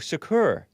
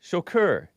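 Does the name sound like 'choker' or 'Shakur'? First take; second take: Shakur; Shakur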